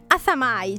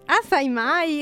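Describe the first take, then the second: First: It is said as one word, assamai. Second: It is said as two words, assai mai. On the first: The speaker calls it right. "Ora dalla regia ci dicono ... Assamai, ci dicono" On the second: The speaker calls it wrong. "che si chiama assai mai"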